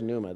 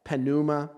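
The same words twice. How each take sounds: First: The P at the start is silent. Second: The P at the start is pronounced. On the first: The speaker calls it right. "the P is silent" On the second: The speaker calls it wrong. "I've heard people mangle that word so bad"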